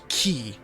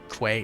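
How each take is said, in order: First: The word is said like key. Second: The word is not said like key. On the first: The speaker calls it right. "the actual pronunciation of Q U A Y is key" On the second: The speaker calls it wrong. "not quay"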